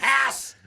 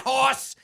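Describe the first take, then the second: First: The vowel is a flat 'a' sound. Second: The vowel is a short 'aw' sound. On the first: "It's not hass" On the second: "It's not hoss"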